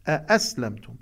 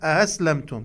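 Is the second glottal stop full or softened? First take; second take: full; softened. First: The second glottal stop is fully and clearly pronounced. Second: The second glottal stop is softened and eased. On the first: The speaker calls it right. "يجب أن نأتي بنبر الهمزة" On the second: The speaker calls it wrong. "يعني الهمزة الثانية تكون همزة مسهلة، وهذا خطأ"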